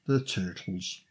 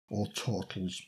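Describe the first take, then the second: First: New York "the Turtles" as toitles; dropped low, New York accent on Turtles. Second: Said in the usual way. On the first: Pretend. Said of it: "say it in a New York accent".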